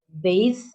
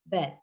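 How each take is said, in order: First: The word ends in a voiced th sound. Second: The word ends in a t sound. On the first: The speaker calls it right. "which should be bathe" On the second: The speaker calls it wrong. "Indonesian changed the to t"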